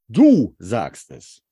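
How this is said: The word 'du' is stressed.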